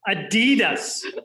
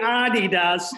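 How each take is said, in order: First: The brand name is said the American way. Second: The brand name is said the non-American way. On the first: The speaker calls it wrong. "not the Americanized version of Adidas" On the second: The speaker calls it right. "we're pronouncing that correctly when we say Adidas"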